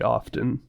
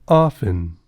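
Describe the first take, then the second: First: The T sound is pronounced. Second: The T sound is silent. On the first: "maybe the T should be pronounced" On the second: "none of these websites pronounce the T in often"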